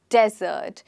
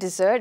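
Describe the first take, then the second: First: The stress is on the first syllable. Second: The stress is on the second syllable. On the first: The speaker calls it right. "Here the stress is on the first syllable" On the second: The speaker calls it wrong. "We do not call it desert"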